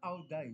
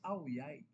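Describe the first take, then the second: First: The second word begins with a D sound. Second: The second word begins with a Y sound. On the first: The speaker calls it wrong. "It's not Ao Dai" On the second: The speaker calls it right. "ang pronunciation pala nila sa D I Y"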